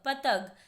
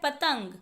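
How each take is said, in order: First: No nasal sound follows the second syllable. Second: A nasal 'ng' sound follows the second syllable. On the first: The speaker calls it wrong. "आगे शब्द है पतग" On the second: The speaker calls it right. "तो अंग की आवाज आ रही है त के बाद"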